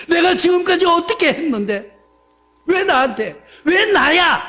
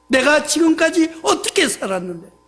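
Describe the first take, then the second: First: 내가 pushed higher, rising grievance; indignant complaint. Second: Half-hearted mock grumble; mild complaint. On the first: Retold or imitated. Believer protests to God about his suffering, indignant. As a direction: protest it, building to 왜 나야. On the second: Believer grumbles at God, mildly aggrieved. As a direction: stress on 어떻게, a touch of grievance. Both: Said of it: "하면서 불만, 불평".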